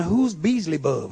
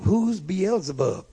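First: "Beasley Bub" said BEEZ-lee-bub for Beelzebub; "Beasley Bub", with the el-ZE syllables lost; imitated mispronunciation. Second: Said in the usual way. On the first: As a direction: garble the name into "Beasley Bub". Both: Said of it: "one brother called him Beasley Bub".

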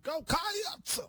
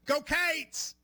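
First: "Go Cats" pitched much higher, Cats drawn into two syllables with a rise; preacher-like Go Cats. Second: "Go Cates!" called out higher, Cates one syllable with an ay vowel; Kentucky cheer. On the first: Co-host cheering Go Cats like a Southern Baptist preacher. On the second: Host showing how Kentucky fans cheer, Cates with an ay vowel. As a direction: cheer "Go Cates!" like a Wildcats fan. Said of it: "we go". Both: Shown as a demonstration.

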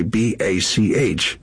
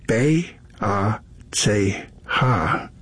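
First: Spelled bee, ay, see, aitch, evenly; English letter names. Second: B A C H as bay, ah, tsay, hah, slowly spaced; slow German spelling "bay... ah... tsay... hah"; German letter names. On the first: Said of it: "in English letters, we say". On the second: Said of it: "In the German pronunciation". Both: Shown as a demonstration.

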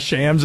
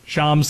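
First: "Shams" rhyming with "hams"; short-A pronunciation. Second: "Shams" with an open "ah", like "Shahms"; broad-A pronunciation. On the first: Host apologizes on behalf of both names, "Shams" with short A. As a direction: give "Shams" the short A of "cat". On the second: Host apologizes on behalf of both names, "Shams" with broad ah. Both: Shown as a demonstration. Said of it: "Shams slash Shams".

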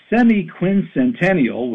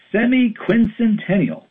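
First: Semi-quincentennial spelled out slowly syllable by syllable; semi-quincentennial said slowly, each syllable laid out; slow, careful naming. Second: Semi-quincentennial pitched high, then falling; Semi-quincentennial said high in exasperation, falling at the end; exasperated high naming. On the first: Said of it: "It doesn't roll off the tongue". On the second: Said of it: "It's so clunky and unappealing". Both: Shown as a demonstration.

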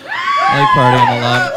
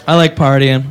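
First: Very high squealed party line; shrill party shriek. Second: Said in the usual way. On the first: Acted. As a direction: squeal it like a drunk party girl. Shrieked repeat of same line.

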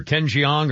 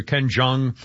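First: Jeong said in two syllables, "jee-ONG"; alternate pronunciation. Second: Jeong said in one syllable, "JONG"; alternate pronunciation. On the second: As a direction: say Jeong without any glide, "jong". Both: Shown as a demonstration. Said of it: "I don't know how it's pronounced".

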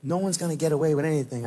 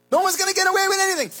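First: Said in the usual way. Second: Much higher, louder and fast; preacher's fiery shout; shouted warning. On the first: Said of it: "repeated line, first plain". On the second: Acted. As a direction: blast the warning out. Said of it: "repeated louder".

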